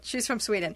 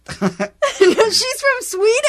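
First: The tone is flat and dismissive. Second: The tone is lively and enthusiastic. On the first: The fact seems unimportant. The speaker calls it wrong. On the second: The fact is exciting. The speaker calls it right.

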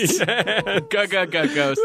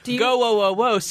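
First: The first sound is stuttered several times. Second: The vowel is drawn out long and smooth. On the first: The speaker is scared of the ghosts. "it's pronounced g-g-g-ghosts" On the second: The speaker is happy to see the ghosts. "Go-o-o-o-s is when you're happy to see the ghosts"

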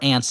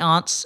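First: The word is said the New Jersey way. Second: The word is said in a non-New Jersey way.

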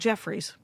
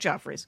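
First: The first vowel is as in 'jet'. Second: The first vowel is as in 'jog'. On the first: "It's called Jeffrey's" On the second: "they call it Joffrey's"

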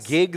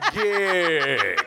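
First: The word is said at a normal pace. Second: The word is said slowly and drawn out.

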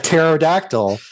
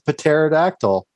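First: The P at the start is silent. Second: The P at the start is pronounced. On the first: The speaker calls it right. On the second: The speaker calls it wrong.

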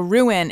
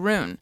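First: The word is said with two syllables. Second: The word is said with one syllable. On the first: The speaker calls it right. "I have to very consciously go ruin" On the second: The speaker calls it wrong. "my whole soul wants to say rune"

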